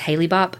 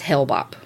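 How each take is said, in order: First: The first part is said with two syllables. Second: The first part is said with one syllable. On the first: The speaker calls it wrong. "I always thought it was Haley Bop" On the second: The speaker calls it right. "It's not. It's Hale-Bopp"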